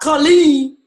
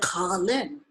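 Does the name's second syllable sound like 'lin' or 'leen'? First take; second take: leen; lin. First: The second syllable has a long 'leen' sound. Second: The second syllable has a short 'lin' sound. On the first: The speaker calls it wrong. "not Colleen" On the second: The speaker calls it right. "you want people to say Colin"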